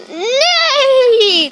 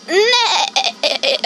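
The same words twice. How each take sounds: First: High, falling horse whinny; horse neigh. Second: Neigh like a horse, wobbling; drawn-out shaky whinny. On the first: Second try at the horse, high whinny. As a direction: let out one long high neigh. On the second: Kid listing animal sounds, horse neigh. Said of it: "A horse goes neigh". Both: Shown as a demonstration.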